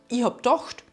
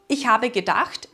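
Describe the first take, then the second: First: The phrase is shortened with the prefix dropped. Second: The phrase is said in full standard form. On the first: This is the dialect form. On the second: This is the standard form.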